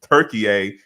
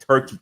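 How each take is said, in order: First: The name is said as three syllables, Tur-ki-ye. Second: The name is said as two syllables, Tur-key. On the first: The speaker calls it right. "new pronunciation" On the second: The speaker calls it wrong. "a my bad"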